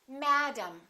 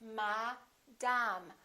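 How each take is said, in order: First: The first vowel is full, the second reduced. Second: Both syllables have the same full vowel. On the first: The speaker calls it right. "one vowel is stressed and one vowel is reduced" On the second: The speaker calls it wrong. "In some languages, each vowel is pronounced the same way"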